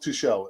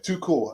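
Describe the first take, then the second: First: The middle consonant is a soft sh sound. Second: The middle consonant is a hard k sound. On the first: The name is said the French way. The speaker calls it wrong. "not too shell" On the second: The name is said the German way. The speaker calls it right. "it's pronounced her too cool"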